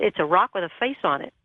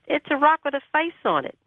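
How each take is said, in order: First: Said in the usual way. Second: Retold in a much higher pitch; insistent repeat. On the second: Pressed to describe it on the phone, retold higher insistence. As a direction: say it over, pitched right up to insist.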